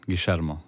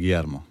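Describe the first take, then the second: First: The name is said in a Rioplatense Spanish accent. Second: The name is said in another Spanish accent. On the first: This is how it is said in Uruguay and Argentina. "I Uruguay och i Argentina så är det Guillermo" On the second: This is how it is said in other Spanish-speaking countries. "i resten av de spansktalande länderna så är det Guillermo"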